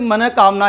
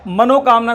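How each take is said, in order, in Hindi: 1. पहला भाग एक फुसफुसाती 'h' ध्वनि पर समाप्त होता है। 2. पहला भाग 'o' स्वर पर समाप्त होता है। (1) "मनः कामना ही शुद्ध होता है" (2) "मनोकामना शब्द गलत होता है"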